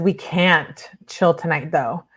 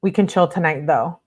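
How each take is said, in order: First: "can't" stressed and drawn out, correcting a misreading; slow corrective emphasis on "can't". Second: Said in the usual way. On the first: Acted. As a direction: lean slowly on "can't", then pause. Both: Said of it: "Oh, he says".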